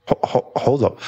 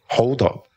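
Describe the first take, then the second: First: Stammered restart. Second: Said in the usual way. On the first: Acted.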